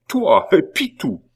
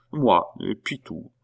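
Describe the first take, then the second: First: High, loud, disbelieving question; incredulous outcry. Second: Said in the usual way. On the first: A narrator's reading. Abbé cannot believe it of Pitou, loudly astounded. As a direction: throw it at him in astonishment.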